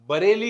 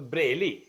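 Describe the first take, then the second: First: A full vowel separates the b and r. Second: The b and r run together as a cluster. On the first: "बरेली होगी" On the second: "हमारे पंजाब में ... तो ब्रेली"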